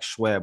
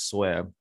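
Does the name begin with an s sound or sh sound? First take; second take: sh; s. First: The name begins with an sh sound. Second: The name begins with a plain s sound. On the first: The speaker calls it wrong. "you start to put an H in there like Schweb, and that's not how you say it" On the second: The speaker calls it right. "most people in the last, 11 or so years know me as Sweb"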